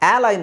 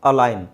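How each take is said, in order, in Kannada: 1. ಮೊದಲ ಸ್ವರ ದೀರ್ಘ 'aa'. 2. ಮೊದಲ ಸ್ವರ ಹ್ರಸ್ವ 'a'. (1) "ಆ ಲೈನ್ ಅಲ್ಲ"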